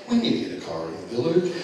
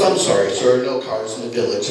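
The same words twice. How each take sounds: First: Low, soft, quick mock reply; mocking the clerk. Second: Lower, much softer, deadpan refusal; a bored clerk saying no; snooty desk boy. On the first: Father mimicking the desk boy, low and soft. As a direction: parrot the clerk back at him. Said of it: "he went". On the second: Retold or imitated. Desk boy turning away the worried father, lower and deadpan. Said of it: "the little boy at the desk goes".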